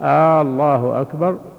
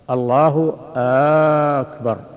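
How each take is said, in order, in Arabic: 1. الحركة الأولى في «الله» ممدودة طويلاً. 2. الحركة الأولى في «أكبر» ممدودة طويلاً. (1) "يمد همزة، الهمزة الأولى" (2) "لو مد همزة أكبر فقال"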